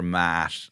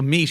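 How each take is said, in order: First: The vowel is a short open ah sound. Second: The vowel is a long ee sound. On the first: This is an older pronunciation. "or mat" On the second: This is the modern pronunciation. "so meat"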